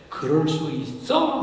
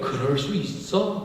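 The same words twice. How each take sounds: First: It sounds like an accusing, challenging question. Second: It sounds calm, understanding and accepting.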